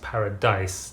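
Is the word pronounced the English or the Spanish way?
English. It is said with an English pronunciation. It is said in a foreign language to sound fancy. "like in English"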